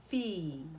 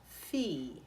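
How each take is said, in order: First: The vowel is a pure Italian vowel. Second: The vowel is a pure Italian vowel.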